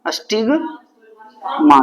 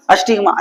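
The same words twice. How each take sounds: First: stigma drawn out very slowly; slow emphasis. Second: Said in the usual way. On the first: Shown as a demonstration. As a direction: stretch stigma for the class to repeat. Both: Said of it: "क्या बोलते हैं?".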